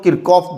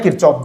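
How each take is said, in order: First: "Kirchhoff" with k in the middle, as Kirkoff; hard-k pronunciation. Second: "Kirchhoff" with ch in the middle, as Kirchoff; ch pronunciation. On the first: Teacher showing the class others' version, "Kirchhoff" as Kirkoff. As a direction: say "Kirchhoff" as KIR-koff, no ch sound. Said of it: "इसको कई लोग Kirchhoff बोलते हैं". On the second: Teacher stating his preferred version to students, "Kirchhoff" as Kir-choff. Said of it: "मैं Kirchhoff बोलता हूँ". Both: Shown as a demonstration.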